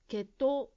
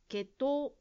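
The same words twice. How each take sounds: First: The final vowel is long. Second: The final vowel is long.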